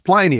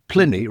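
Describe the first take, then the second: First: The name does not rhyme with Vinny. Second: The name rhymes with Vinny. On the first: The speaker calls it wrong. "people say to me, "It's Pliny, isn't it?" I said, "No" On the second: The speaker calls it right. "Pliny rhymes with Vinny"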